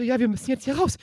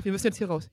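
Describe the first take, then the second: First: Mildly urgent, higher and louder; re-enacted pleading with rising urgency; urgent retelling. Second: Said in the usual way. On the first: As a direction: press to get out, acting it out. Retold panicked argument, urging to leave.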